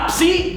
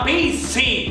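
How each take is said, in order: First: It starts with the cluster ps in one syllable. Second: A vowel splits p and s into two syllables. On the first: It is the standard pronunciation. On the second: It imitates how grandparents say it.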